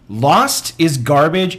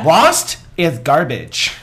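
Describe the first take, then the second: First: It is read out plainly, without extra force. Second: It is said with extra force and gusto. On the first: "and I quote" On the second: "you want it with more gusto?"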